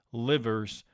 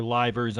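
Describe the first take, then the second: First: Livers with a short i, LIV-urz; first pronunciation. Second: Livers with a long i, LYE-vurz; alternative pronunciation. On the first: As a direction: say Livers to rhyme with givers. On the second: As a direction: say Livers to rhyme with divers. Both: Shown as a demonstration. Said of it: "I'm not sure how you say it".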